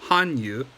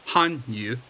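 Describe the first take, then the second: The two takes are said the same way.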